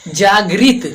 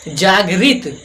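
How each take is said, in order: No difference in how they are said.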